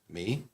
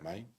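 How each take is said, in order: First: The vowel sounds like English 'me'. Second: The vowel sounds like English 'my'. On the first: The speaker calls it right. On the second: The speaker calls it wrong.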